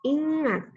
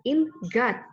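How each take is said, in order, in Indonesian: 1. n dan g menyatu menjadi satu bunyi. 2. n dan g diucapkan terpisah. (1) "n dan g kita bunyikan secara bersamaan menjadi satu" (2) "bukan ingat"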